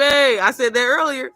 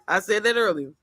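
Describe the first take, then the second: First: Slow, loud and pointed, pitched up; a firm teasing reminder; emphatic repeat. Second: Said in the usual way. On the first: Shown as a demonstration. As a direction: lean on each word, slowly and loudly.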